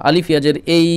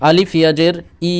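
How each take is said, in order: First: এই said with an e sound instead of ee; wrong majhul reading. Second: ই said as a pure long ee, ইয়াজের ই; correct maruf reading. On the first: Teacher to students, showing the forbidden এ sound. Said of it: "এরকম বলবো না". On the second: Teacher to students, showing the correct ই sound. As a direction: say ই with a clear ee sound, not e. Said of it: "অর্থাৎ ই উচ্চারণ করব". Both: Shown as a demonstration.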